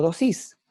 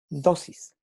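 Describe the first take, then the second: First: "dosis" stressed on the last syllable, do-SIS; wrong final stress. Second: "dosis" stressed on the first syllable, DO-sis; correct penultimate stress. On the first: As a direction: say "dosis" as doSÍS, rising on the end. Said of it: "No decimos". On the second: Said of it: "el énfasis de la sílaba está en la penúltima". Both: Shown as a demonstration.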